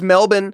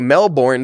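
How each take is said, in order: First: It is said the local Australian way. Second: It is said the American English way.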